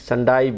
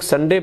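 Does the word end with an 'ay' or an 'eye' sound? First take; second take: eye; ay. First: The final syllable ends in an 'eye' sound. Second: The final syllable ends in an 'ay' sound. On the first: This is how speakers in Europe or Australia say it. "European country या Australia या दूसरे country में संडाई संडाई बोलते हैं" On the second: This is how Indian speakers say it. "हम लोग संडे बोलते हैं"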